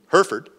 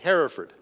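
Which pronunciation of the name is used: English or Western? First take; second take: Western; English. First: It is said with a Western American pronunciation. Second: It is said with an English pronunciation. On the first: "There's the Western pronunciation" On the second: "And there's the English pronunciation"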